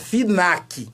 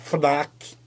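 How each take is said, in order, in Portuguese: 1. Dito à maneira brasileira, uma vogal entre F e N. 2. Dito à maneira europeia, F e N juntos. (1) "se fosse mineiro seria FINAC" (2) "como eles falam lá"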